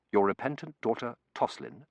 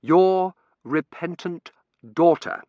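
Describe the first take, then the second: First: Said in the usual way. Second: 'Your repentant daughter' slow, every word hit; each word emphasized. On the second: Shown as a demonstration. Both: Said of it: "I read, emphasizing each word".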